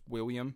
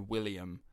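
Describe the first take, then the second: First: The middle consonant sounds almost like a Y. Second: The middle consonant is a clear L sound. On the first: "in Scotland, it's just William. It's almost like you don't say it. It's like a Y" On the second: "we'd say William"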